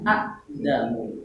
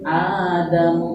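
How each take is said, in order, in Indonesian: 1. Ada hamzah setelah vokal pertama yang pendek. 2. Vokal pertama panjang dan tidak ada hamzah. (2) "hamzah sukunnya sudah diganti oleh alif"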